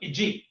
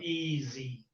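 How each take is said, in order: First: The middle consonant is a j sound. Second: The middle consonant is a z sound. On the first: The speaker calls it wrong. "They say it as j" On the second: The speaker calls it right. "the sound z"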